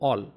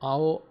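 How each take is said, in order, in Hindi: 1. स्वर एक शुद्ध 'o' ध्वनि है। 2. स्वर 'aa' से 'o' तक सरकता है। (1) "all बोलिए" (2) "आओ मत कीजिए"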